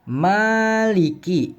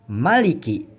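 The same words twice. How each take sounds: First: The first vowel is held long. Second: The first vowel is short. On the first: The speaker calls it right. "huruf mimnya dibaca panjang" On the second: The speaker calls it wrong. "bukan maliki"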